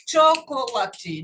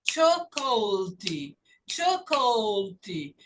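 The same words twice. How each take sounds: First: Chocolate slowly as cho-co-la-tee; four-syllable chocolate. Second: Chocolate slowly as CHO-col-tee, middle vowel swallowed; three-syllable chocolate. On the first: Teacher shows what is wrong, chocolate in four syllables. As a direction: sound every vowel in chocolate, four beats. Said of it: "Não tem quatro sílabas". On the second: Teacher models correct word, slow chocolate in three syllables. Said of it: "Então, você fala choco". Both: Shown as a demonstration.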